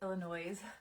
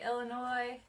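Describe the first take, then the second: First: The word is said a quirky, unusual way. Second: The word is said the ordinary way.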